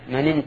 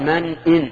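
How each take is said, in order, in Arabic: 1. الهمزة تُسقط والكلمتان تتصلان. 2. الهمزة قبل 'in' تُنطق بوضوح. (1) "هذا خطأ، لأنه إذا قال من إن تأمن جعل الهمزة همزة وصل" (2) "هنا يجب الإظهار لأن همزة همزة قطع"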